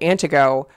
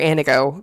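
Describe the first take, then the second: First: The T sound in the middle is pronounced. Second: The T sound in the middle is dropped.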